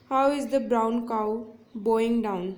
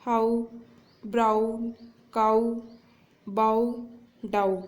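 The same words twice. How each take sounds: First: Slow example read. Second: "how" "brown" "cow" "bow" "down" each said alone, with long pauses and the "ou" sound pressed; isolated stressed words. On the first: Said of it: "यहाँ पे example देखते हैं". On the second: Teacher showing students the repeated "ou" sound, each word stressed and set apart. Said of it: "तो यहाँ पे देखिए". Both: Shown as a demonstration.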